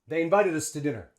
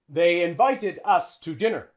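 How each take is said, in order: First: The word 'us' has a short schwa vowel. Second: The word 'us' has a long, full vowel. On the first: The speaker calls it right. "We would use schwa" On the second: The speaker calls it wrong. "Native English speaker wouldn't say that. It's too long"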